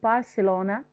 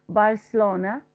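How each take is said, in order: Both takes have the same delivery.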